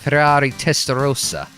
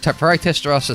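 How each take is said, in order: First: It is said with an Italian accent. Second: It is said with a British accent. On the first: The speaker calls it right. "the more uh, properly Italian way" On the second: The speaker calls it wrong. "I shouldn't say it the British way"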